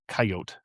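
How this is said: It is said the South Dakota way.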